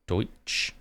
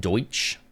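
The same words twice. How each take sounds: First: Deutsch whispered back as "doitch", checking it; repeating Deutsch. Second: Deutsch said slowly and carefully, like "doitch"; pronouncing Deutsch. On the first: Streamer double-checking Deutsch for chat, whispered "doitch". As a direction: quietly try Deutsch again as "doitch". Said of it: "Did I say that right?". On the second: Streamer showing chat how Deutsch is said, careful "doitch". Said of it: "That's pronounced Deutsch". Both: Shown as a demonstration.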